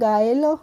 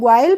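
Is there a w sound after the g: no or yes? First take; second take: no; yes. First: No w sound follows the g. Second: A w sound follows the g. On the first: The speaker calls it right. "नहीं इसको पढ़ेंगे गाइल" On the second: The speaker calls it wrong. "तो इसको ग्वाइल पढ़ेंगे, नहीं"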